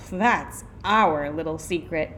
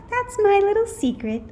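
First: Put-on coy reply, not raised; secretive kids. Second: High, louder playful reply; coy teacher. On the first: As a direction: echo it slyly, stressing OUR. Children echo the teacher's coy answer. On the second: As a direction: keep it teasingly secret, high-pitched. Returned sweet teacher answers coyly. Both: A narrator's reading.

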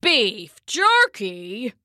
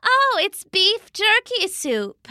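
First: "Beef jerky" very slowly, rising in disbelief; incredulous Papa. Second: High, slow Mama voice; breezy Mama. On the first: Papa hears what Mama put in the soup, incredulous. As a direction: drag it out as a questioning old man. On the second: Mama tells Papa what the soup is, breezy. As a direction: answer breezily, pitched well up. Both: A narrator's reading.

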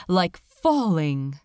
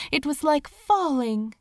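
First: "falling" slowed and leaned on; stress on falling. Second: Said in the usual way. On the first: A narrator's reading. Narrator correcting herself, slowing on "falling". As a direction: correct yourself, dwell slowly on "falling".

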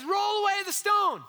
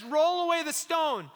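First: Higher, louder ringing command to roll away the stone; raised command. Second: Said in the usual way. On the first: Acted. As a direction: proclaim it like a command. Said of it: "he says". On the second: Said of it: "And then Jesus says".

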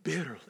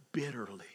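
First: "Bitterly" said again, voiced and fuller; repeated for weight. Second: "bitterly" whispered low and soft. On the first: Pastor repeating the word to the church, emphatic. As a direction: land "Bitterly" a second time with weight. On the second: Pastor dwelling on Hezekiah's tears, whispered. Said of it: "he cried". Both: Shown as a demonstration.

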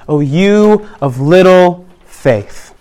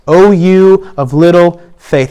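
First: Slow, weighty quote; slow emphasis. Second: Slow, gentle echo; slow repeat. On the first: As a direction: let each word land slowly. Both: Shown as a demonstration.

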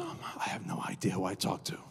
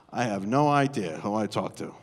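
First: Hushed whisper of shock; whispered realization. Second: Lower, amused through a laugh; laughing aside. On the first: Retold or imitated. Pastor realizing on the phone, whispered. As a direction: let the words fall away into a breath. Whispered version then laughing version. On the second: Real, not acted. Pastor telling the congregation, laughing. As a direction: share the joke with the crowd.

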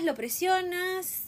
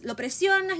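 First: Lo presionas stretched slowly, still high; slow drawn-out repeat. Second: Lo presionas pushed much higher and louder, insisting; emphatic repeat. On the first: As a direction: draw out lo presionas slowly, letting it sink in. (lo presionas, lento y alargado) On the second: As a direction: hit lo presionas high and hard. (lo presionas, agudo y fuerte, insistiendo) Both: Real, not acted. Building complaint about pressure.

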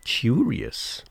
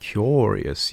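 First: High "Curious" as KYOO-ree-us, rising; repeated odd pronunciation. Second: "Curious" as KYOR-ee-us, falling; corrected pronunciation. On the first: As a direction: repeat "Curious" with an oo vowel, questioning. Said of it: "it's funny how you say that". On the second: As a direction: say "Curious" with an or vowel. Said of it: "actually it's curious". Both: Shown as a demonstration.

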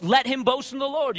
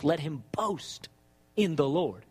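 First: Said in the usual way. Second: Low, drawn out, BOAST stretched long; slow right down and drop low, pausing after BOAST; scripture quoted slowly with a long BOAST; slow emphatic quote. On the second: Shown as a demonstration. Quoting scripture, first take slow.

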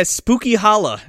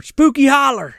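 First: "Holla" ending in an open ah; dropped-r "Holla". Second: "Holler" with the final r sounded; "Holler" closed on an r; r-ending "Holler". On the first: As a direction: say "Holla" with no final r. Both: Shown as a demonstration. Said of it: "or Spooky Holler is what it's called".

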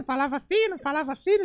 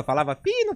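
First: Put-on much higher, thin little-kid pitch; tiny high schoolboy squeak; thin squeaky voice. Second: Said in the usual way. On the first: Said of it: "O molequinho na escola falava fino".

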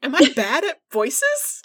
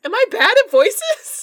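First: Slowed, rising whine; mock worried. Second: High, loud wailing question; mock anguished cry. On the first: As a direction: ask it in mock despair. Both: Real, not acted.

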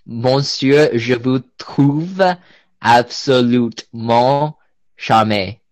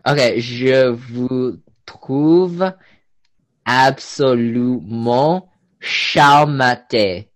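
First: "je vous trouve absolument charmé" slowly, in French; spoken French. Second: "je vous trouve absolument charmante" slow, in careful French; spoken French. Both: Shown as a demonstration. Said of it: "I'll say a sentence in French".

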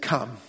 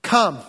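First: Low, soft "Come." as a calm one-word call; quiet invitation. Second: Said in the usual way. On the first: Acted. Jesus answering Peter with one soft word. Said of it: "Jesus said". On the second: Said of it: "predicated on one word".

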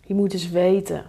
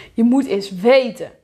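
First: Said in the usual way. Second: WETEN hit louder with a sharp fall; second take, louder emphasis on "weten"; angry stress on WETEN. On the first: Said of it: "je denkt alleen maar". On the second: Acted. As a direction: punch "weten" as an exasperated thought. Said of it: "Je wordt gewoon boos".

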